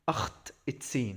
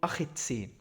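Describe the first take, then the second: First: The t sound is pronounced twice in a row. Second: The t sound is pronounced only once. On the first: The speaker calls it wrong. "مش هينفع تقول اخت تسين" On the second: The speaker calls it right. "فانت هنا هتقول اخ تسين"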